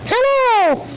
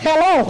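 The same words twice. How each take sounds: First: Very high sing-song puppet hello; sweeter, higher squeak. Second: High puppet hello; little squeaky greeting. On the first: Dummy greets the boys and girls, very high puppet voice. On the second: Dummy greets the officer, high puppet voice. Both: Acted.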